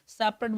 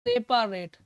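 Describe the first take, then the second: First: The middle vowel is short and reduced. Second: The middle vowel is a full, clear 'a'. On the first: It is the normal way to speak it. "बोलने के लिए तो आप सेपरेट बोल दीजिए" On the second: It helps recall the spelling. "सेपारेट ऐसे पढ़िए, हमेशा याद रहेगा"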